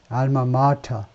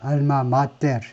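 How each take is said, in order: First: The ending is reduced to an English 'tuh' sound. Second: Each letter is read plainly, ending in 'teh-reu'. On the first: This is the English-adapted reading most people use. "이게 영어화돼 가지고 발음이 알마 마터" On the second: This is the original Latin reading. "그냥 알파벳 그거 그대로 알마 마테르 이렇게 읽는 게 라틴어인데"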